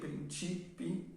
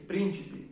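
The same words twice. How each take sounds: First: The stress is on the second I. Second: The stress is on the first I. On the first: It means principles. "está en la segunda I" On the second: It means princes. "el acento está en la primera I"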